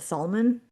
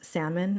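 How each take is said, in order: First: The L sound is pronounced. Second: The L sound is silent. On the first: The speaker calls it wrong. "they call it salmon" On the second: The speaker calls it right. "people mispronounce salmon"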